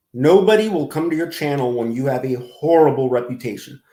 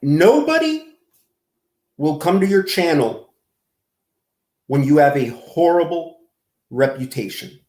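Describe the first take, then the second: First: Said in the usual way. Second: Deliberate, emphatic. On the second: Real, not acted. Lecturing G-Man about his channel, deliberate broken-up phrasing.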